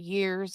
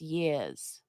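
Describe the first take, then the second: First: The word is said in a plain accent. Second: The word is said in a Boston accent. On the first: "Instead of years" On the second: "He was from Boston"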